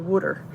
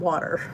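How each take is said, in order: First: It is said in a Philadelphia accent. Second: It is said in a standard accent.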